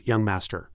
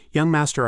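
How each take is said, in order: First: Said in the usual way. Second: Put-on called out high and loud, "Young master" ringing; a bright raised call of "Young master". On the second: A narrator's reading. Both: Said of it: "she called out".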